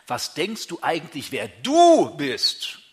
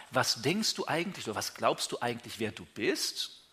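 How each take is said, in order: First: Du punched much louder and stretched slowly; indignant challenge, du loud and slow; stress on du. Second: Said in the usual way. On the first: Shown as a demonstration. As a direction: hit du hard in wer du bist. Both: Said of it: "So wäre dann eher die Betonung".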